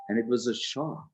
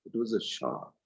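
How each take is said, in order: First: Said in the usual way. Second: Softer repeat of "It was a shock."; softer echo. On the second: Shown as a demonstration. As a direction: let "It was a shock." sink in softly.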